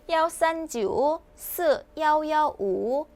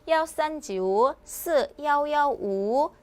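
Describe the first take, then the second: Both takes have the same delivery.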